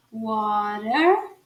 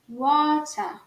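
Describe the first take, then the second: First: "water" with tapped T, rising curled R; American R. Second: "water" with crisp T, ending "ah"; British, silent R. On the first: Teacher contrasts the two accents, American R. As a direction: sound the final R of "water" fully, American. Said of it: "o R bem pronunciado no sotaque americano". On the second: Teacher contrasts the two accents, British without R. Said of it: "não fala o R no sotaque britânico". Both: Shown as a demonstration.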